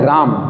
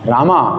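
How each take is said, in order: First: The word ends on a bare m consonant. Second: The word ends on a full final vowel. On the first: A syllable of the name is left incomplete. The speaker calls it wrong. "माँ आपने आधा बोला" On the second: Every syllable of the name is complete. The speaker calls it right. "जबकि है राम, रामा"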